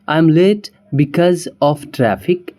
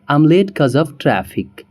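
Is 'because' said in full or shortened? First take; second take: full; shortened. First: Because is said in full with two syllables. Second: Because is shortened to the single syllable cuz. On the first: "जैसे" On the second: "लेकिन हम native में क्या बोलेंगे?"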